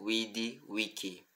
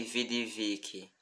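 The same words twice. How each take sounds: First: "vidi, vici" as "widi, wiki", soft; restored Latin "vidi, vici", w and k; classical w and k. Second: "vidi, vici" with a Portuguese v, slow; Church-style "vidi, vici" with v sounds; wrong v pronunciation. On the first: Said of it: "e sim". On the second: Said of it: "Não pronunciamos". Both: Shown as a demonstration.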